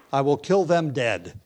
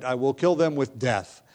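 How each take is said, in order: First: Slow, amused emphasis on "kill them dead"; emphatic, laughing. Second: Said in the usual way. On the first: Shown as a demonstration. Pastor stressing the redundancy to the congregation, slow and amused. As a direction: lean into "kill" and "dead" slowly with a chuckle. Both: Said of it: "it's emphatic".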